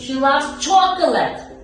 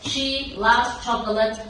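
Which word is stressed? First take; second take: chocolate; loves. First: The stress falls on the word chocolate. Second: The stress falls on the word loves. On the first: "Not a cake" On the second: "If I want to put uh, love, yes, we can put the stress"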